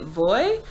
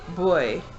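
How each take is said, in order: First: The word begins with a V sound. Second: The word begins with a B sound. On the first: "it's spelled V O Y" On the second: "V in Spanish is it has a more B sound"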